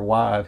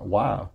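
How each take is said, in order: First: It sounds dismissive and uncaring. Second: It sounds worried and caring. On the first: The speaker does not really care about the answer. "It wasn't like, you know, like, you know, whatever, why?" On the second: The speaker genuinely cares about the other person. "it was like a concern sound"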